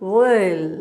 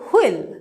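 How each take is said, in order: First: The word begins with a soft w glide. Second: The word begins with a hard, forceful onset. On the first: The speaker calls it right. "the sound is wo, e, lo" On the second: The speaker calls it wrong. "আমরা এটাকে বলি শক্ত করে"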